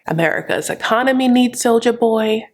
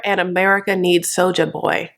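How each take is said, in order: First: "needs" pushed up higher and harder; stress on needs. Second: Said in the usual way. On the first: Retold or imitated. Usman insisting to his brother, stressing "needs". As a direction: lean hard on "needs".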